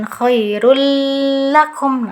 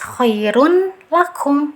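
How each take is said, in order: First: The merged sound is held with a nasal hum. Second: The n is pronounced clearly before the l. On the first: "jangan ditahan. Dia nggak usah ada dengung. Jangan khairul lakum" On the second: "dibaca jelas khairun lakum"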